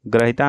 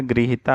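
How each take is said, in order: First: ग्रहिता begun with "gra"; gra for gri. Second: गृहिता begun with "gri"; correct gri syllable. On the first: Teacher showing the mistake, ग्रहिता with gra. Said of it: "ग्रहिता नहीं होता है". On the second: Teacher correcting the word, गृहिता with gri. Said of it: "गृहिता होता है". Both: Shown as a demonstration.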